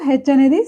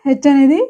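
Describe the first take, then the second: The two takes are said the same way.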